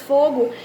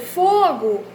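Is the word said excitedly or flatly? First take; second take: flatly; excitedly. First: The word is said flatly, without exclamatory intonation. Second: The word is said with excited, exclamatory intonation. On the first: The speaker is not reacting to the situation. The speaker calls it wrong. "colocar apenas fogo" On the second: The speaker is reacting to seeing something on fire. The speaker calls it right. "eu tenho que colocar essa entonação, eu tenho que colocar essa exclamação"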